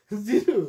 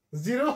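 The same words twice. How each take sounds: First: জিরো said as "zi-roo"; regional final u. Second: জিরো ending in a clear "o"; final o. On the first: Retold or imitated. Teacher imitating home-district speech, final u. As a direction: end জিরো on "oo" in place of o. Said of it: "আমাদের সব হলো উ". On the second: Shown as a demonstration. Teacher contrasting standard with regional speech, final o. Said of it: "ও দুটো যে আলাদা".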